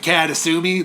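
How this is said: The name is said with an American pronunciation. The speaker calls it wrong. "If you don't say it right, if you go into Japan and be like"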